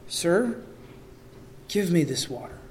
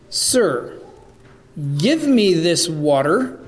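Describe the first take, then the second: First: The request is spoken with a humble, sober tone. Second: The request is spoken with a biting, sarcastic tone. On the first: The request is a sincere plea for the offer. "a more humble and sobered seriousness to the request" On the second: The request mocks the offer rather than accepting it. "Is there a bit of dripping and biting sarcasm in his words?"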